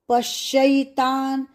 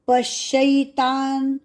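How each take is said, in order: The two takes are said the same way.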